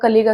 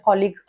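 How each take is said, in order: First: The first vowel sounds like 'uh'. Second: The first vowel sounds like 'aw'. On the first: The speaker calls it wrong. "बरेच जण याला कुलीग किंवा कलिग असं म्हणतात" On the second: The speaker calls it right. "त्याचा उच्चार कॉलिग असा असतो"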